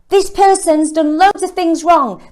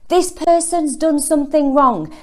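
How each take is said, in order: First: It is said more loudly. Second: It is said at a normal volume.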